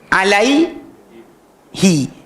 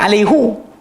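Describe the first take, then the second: First: The last syllable ends with an 'ee' vowel. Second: The last syllable ends with an 'oo' vowel. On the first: The speaker calls it right. "will change from hu dhammah vowel sign kepada kasrah vowel sign" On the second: The speaker calls it wrong. "Jangan baca"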